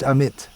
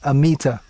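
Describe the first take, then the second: First: The name ends on a consonant sound. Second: The name ends on a vowel sound. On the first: This is how it is said in India. "in India it's pronounced Amit" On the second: This is how English speakers read it from spelling. "in English pronunciation, you generally stress the penultimate syllable"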